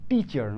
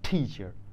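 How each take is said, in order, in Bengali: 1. প্রথম t-তে কোনো বাতাসের ফুঁ নেই। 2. প্রথম t-তে বাতাসের ফুঁ আছে। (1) "যেমন টিচার না" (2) "সকল টকে এবার বানাবো আমরা ঠ"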